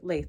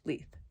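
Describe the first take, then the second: First: The word rhymes with 'bathe'. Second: The word rhymes with 'teeth'. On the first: The speaker calls it wrong. "I always mispronounce that" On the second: The speaker calls it right. "Leith is how it's pronounced"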